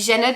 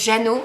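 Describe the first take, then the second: First: The final d sound is pronounced. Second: The word ends in a vowel, no d. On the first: The speaker calls it wrong. "je dis Janod" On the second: The speaker calls it right. "mais ça se prononce Jano"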